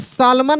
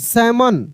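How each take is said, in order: First: The L sound is pronounced in the word. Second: The L sound is left out of the word. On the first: The speaker calls it wrong. "सालमन नहीं पढ़ेंगे" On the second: The speaker calls it right. "सैमन पढ़ेंगे"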